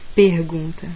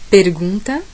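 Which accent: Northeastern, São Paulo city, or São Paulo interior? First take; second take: Northeastern; São Paulo city. First: It is said in a Northeastern Brazilian accent. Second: It is said in a São Paulo city accent. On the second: "Capital paulista"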